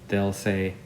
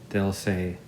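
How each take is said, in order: Both takes have the same delivery.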